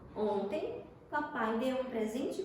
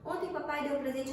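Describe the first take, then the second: First: There is a pause after 'ontem'. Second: It runs on with no pause after 'ontem'. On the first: The speaker calls it right. "Não fica mais, muito mais bonito?" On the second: The speaker calls it wrong. "se ela não estivesse ali, você ia ler assim"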